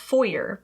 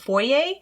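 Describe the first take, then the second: First: Foyer is said in the American pronunciation. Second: Foyer is said in the European pronunciation. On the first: "over here in the States, it's common to say like foyer" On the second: "it's more common in Europe to say like the foyer"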